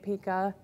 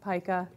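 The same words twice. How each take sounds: First: The word is given its European pronunciation. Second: The word is given its American pronunciation. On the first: "Europeans tend to say pica" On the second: "Americans mispronounce everything, so they say pica"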